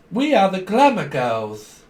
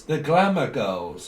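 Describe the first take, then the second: First: High, loud, drawn-out proclamation; showy group announcement. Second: Said in the usual way. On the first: Acted. The glamour girls presenting themselves, showy and drawn-out. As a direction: proudly stretch out GLAMOUR GIRLS.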